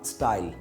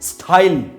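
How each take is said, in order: First: The t is said without a puff of air. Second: The t is said with a puff of air. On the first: The speaker calls it right. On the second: The speaker calls it wrong.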